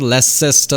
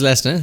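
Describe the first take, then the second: First: The 'ces' syllable is said in full. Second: The ending is said as a short 'ster'. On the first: The speaker calls it wrong. "It's not Leicester or something" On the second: The speaker calls it right. "It is Leicester"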